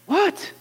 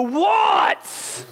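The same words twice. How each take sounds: First: Weary reply. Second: Exasperated dad shout. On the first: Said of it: "Jesus answering the nagging". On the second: Father losing patience with a nagging kid, shouting. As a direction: yell back like a worn-out father. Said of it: "You finally go". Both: Acted.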